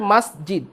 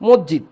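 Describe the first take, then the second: First: The first vowel is an open 'a' sound. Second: The first vowel is a rounded 'o' sound. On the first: The speaker calls it right. "আসলে উচ্চারণ করতে হয় মাসজিদ" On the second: The speaker calls it wrong. "আমরা বাংলায় যখন বলি এটাকে কি বলি"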